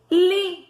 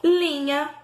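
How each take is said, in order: First: "Linha" split, LI punched high and loud; stressed syllable isolated. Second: Said in the usual way. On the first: Shown as a demonstration. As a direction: hit LI, pause, then drop "nha". Splits word to find stressed syllable.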